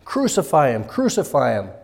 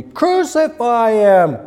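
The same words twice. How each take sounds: First: Restrained imitation of a chanting crowd; mild mock crowd cry. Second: Loud, high, drawn-out crowd shout; full-force mob cry, stretched out; crying out exceedingly. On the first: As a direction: cry it out twice, only moderately raised. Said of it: "deafening as they cried out". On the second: Acted. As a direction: bellow it slowly like a demanding mob. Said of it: "they cried out the more exceedingly".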